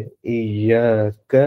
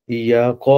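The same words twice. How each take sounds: First: ایاک slow, ending in a light front k; ایاک drawn out, the k kept thin, the right way; light kaf. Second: ایاق with a thick, heavy q from the throat; wrong heavy qaf. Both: Shown as a demonstration. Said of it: "اس قاف کو موٹا نہیں کریں گے".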